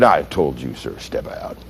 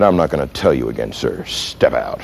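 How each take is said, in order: First: Very low, hushed command; subdued repeated order. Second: Low, quiet ultimatum; final warning. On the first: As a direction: sink down to a near-whisper for the order. Officer repeats order, at a loss. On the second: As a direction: drop deep and soft for the last order. Officer's final warning to driver. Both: Retold or imitated.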